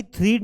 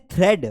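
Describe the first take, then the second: First: "thread" as threed; long ee in "thread"; wrong pronunciation demo. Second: "thread" as thred; short e in "thread"; correct pronunciation demo. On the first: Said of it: "thread नहीं पढ़ना है". ("thread" में "ई" की आवाज़) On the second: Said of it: "इसे पढ़ते हैं thread". ("thread" में "ए" की आवाज़) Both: Shown as a demonstration.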